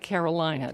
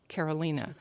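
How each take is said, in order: First: The name is said with English pronunciation. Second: The name is said with Spanish pronunciation. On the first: "It looks like Carolina to the rest of us" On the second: "in the Spanish pronunciation"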